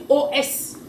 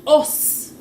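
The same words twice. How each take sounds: First: O S read as letter names, \"oh ess\"; O S named as two separate letters; spelled letters. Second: Os read as one sound, \"oss\", slowly; said as a word. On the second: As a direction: say os as a single word, not letters. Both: Shown as a demonstration. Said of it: "Il va pas dire O S".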